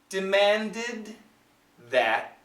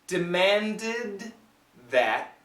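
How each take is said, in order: The two takes are said the same way.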